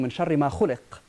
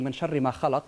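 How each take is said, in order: First: The last word is said as khuliqa. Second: The last word is said as khalaqa. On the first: The evil was created. "they read it in the passive, from that which was created" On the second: God created the evil. "one reading ... that God created evil"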